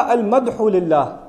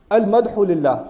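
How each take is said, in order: First: Drawn-out, deliberate "المدح للہ" with each syllable spelled out slowly; slowly stressed "المدح للہ"; slow teaching emphasis. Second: Said in the usual way. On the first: Shown as a demonstration. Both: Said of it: "اگر قرآن کہتا".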